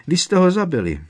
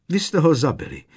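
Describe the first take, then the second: First: Even higher, louder anguished shriek; rising hysteria. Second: High, loud accusing cry; distraught accusation. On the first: House-elf repeating the accusation, shrill hysterical cry. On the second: House-elf accusing the professors, high anguished cry. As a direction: fling it at them in grief. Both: Acted.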